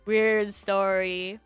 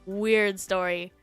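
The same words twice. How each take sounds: The two takes are said the same way.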